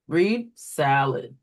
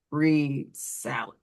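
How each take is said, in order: First: Slow, clear "Read salad" as to a student; slow teacher prompt. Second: "read salad" said slowly and clearly; slow teacher prompt. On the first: Teacher modelling a correction to a student, slow and clear. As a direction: model the prompt slowly for the kids. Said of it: "what you would do for this one, read the word". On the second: Teacher prompting a student to reread salad, slow and clear. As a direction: coach the child to reread, unhurried. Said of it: "Point to the left of the word". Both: Shown as a demonstration.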